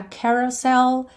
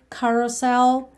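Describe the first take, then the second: First: "Carousel" slowly, starting like "keh"; open "ke" start. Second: "carousel" slowly, starting like "kah". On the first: Teacher offers learners either pronunciation, "keh" beginning. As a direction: say "Carousel" as "keh-rou-sel". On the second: Teacher offers learners either pronunciation, "kah" beginning. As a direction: say "carousel" as "kah-rou-sel". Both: Shown as a demonstration. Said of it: "pode ser mais K ou mais que".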